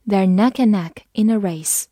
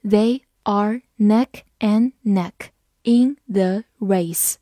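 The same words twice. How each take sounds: First: Said in the usual way. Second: Slow, separated words, uncontracted; slow read-through. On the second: Shown as a demonstration. Teacher rereads the race sentence for learners, slow read-through. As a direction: read it word by word with clear gaps. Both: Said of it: "好，我们慢读一遍".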